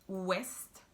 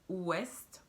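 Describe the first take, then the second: No difference in how they are said.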